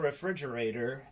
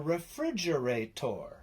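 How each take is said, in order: First: The word ends with a "der" sound. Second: The word ends with a "tor" sound. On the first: The speaker calls it wrong. "then you're saying it wrong and the end is wrong" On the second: The speaker calls it right. "It's actually called a refrigerator. Tor"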